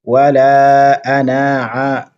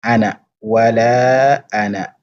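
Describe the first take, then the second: First: "ana" with the final a wrongly stretched, as beginners do; "Wala ana" with its a held long, the common beginner's mistake; wrong prolongation. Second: "ana" said with a short final a, no prolongation. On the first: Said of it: "une erreur que beaucoup de débutants font". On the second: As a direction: say "wala ana" without stretching the a. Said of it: "Donc on dit juste ana". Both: Shown as a demonstration.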